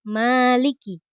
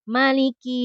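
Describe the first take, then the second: First: The first vowel is held long. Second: The first vowel is kept short. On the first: "dengan isbat alif ya panjang" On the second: "dengan hazfu alif, membuang alif"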